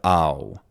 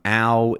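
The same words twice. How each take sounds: First: The vowel is not fronted. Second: The vowel is strongly fronted. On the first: "instead of" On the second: "very, very fronted to become ow"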